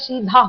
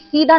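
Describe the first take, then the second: First: The second consonant is an aspirated dh. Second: The second consonant is an unaspirated d. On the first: The speaker calls it right. "सीधा होता है" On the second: The speaker calls it wrong. "धा की जगह पे क्या बोल दिया, दा बोल दिया आपने"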